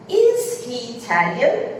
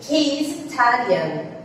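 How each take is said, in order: First: "Is he Italian?" slow, rising at the end; question tune. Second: "He is Italian." said slowly and evenly as a statement; statement tune. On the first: Teacher modelling the question form for students, slow rising question. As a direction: lift on "Italian" to make it a question. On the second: Teacher modelling the statement before the question, slow even statement. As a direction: keep "Italian" level, no lift. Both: Shown as a demonstration. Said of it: "exemplos pra vocês verem como isso ficaria".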